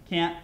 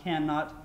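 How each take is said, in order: First: Said in the usual way. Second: "can, not" as two separate words; uncontracted formal form. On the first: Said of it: "a lot of conjunctions". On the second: Shown as a demonstration. Teacher showing the speech-making form, "can, not" said as two words. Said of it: "if you're giving a speech like this".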